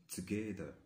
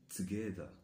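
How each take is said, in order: The two takes are said the same way.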